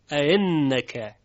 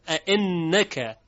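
First: اَإِنَّكَ gliding from a into i, n held; softened second hamza. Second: اَإِنَّكَ with the hamzas set apart and a held n; example word recited. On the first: Teacher demonstrates tashil, smooth glide. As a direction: join a and i in اَإِنَّكَ without a hard stop. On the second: Teacher names the word, careful recitation. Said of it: "در اَإِنَّكَ". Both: Shown as a demonstration.

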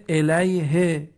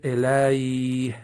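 First: الیه slow, ending in a short vowel "-hi"; final kasra sounded. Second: الیه drawn out, ending on a breathed h; pausal silent ending. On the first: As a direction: say الیه carefully as "ilayhi". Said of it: "آخرش کسره آمده". (تلفظ شمردهٔ الیه با کسرهٔ آخر) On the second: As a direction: end slow الیه on vowelless h, "ilayh". (تلفظ کشیدهٔ الیه با های ساکن) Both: Shown as a demonstration.

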